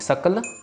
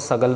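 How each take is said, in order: First: The middle consonant is a voiceless k sound. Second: The middle consonant is a voiced g sound. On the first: The speaker calls it right. "ये कक्के के साथ है" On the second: The speaker calls it wrong. "इसको सगल नहीं पढ़ना"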